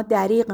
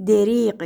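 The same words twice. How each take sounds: First: دریغ said as dariq, with a short a in the first syllable; the everyday dariq; common pronunciation. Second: دریغ said as deriq, with a short e in the first syllable; the proper deriq; correct pronunciation. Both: Shown as a demonstration.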